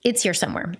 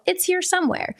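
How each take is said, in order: First: Said in the usual way. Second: "here" lifted high then falling; high calm "It's here somewhere" with a lifted "here"; reassuring, stress on here. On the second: Retold or imitated. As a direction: reassure the kid, lifting "here". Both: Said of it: "I was like".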